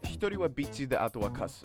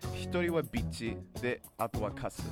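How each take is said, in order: First: It is said at normal speed. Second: It is said a little more slowly.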